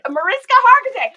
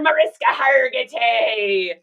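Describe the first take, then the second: First: It is said in a normal voice. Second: It is said in a pirate voice.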